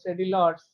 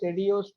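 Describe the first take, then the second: First: The L sound is pronounced in the name. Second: The L sound is silent in the name. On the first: The speaker calls it wrong. "Even though you write the spelling as Cedilots" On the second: The speaker calls it right. "it is pronounced as Cedios triangle. Here, this L L is silent there"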